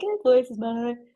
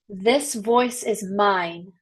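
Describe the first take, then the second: First: It is said limply, without conviction. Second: It is said firmly, with conviction.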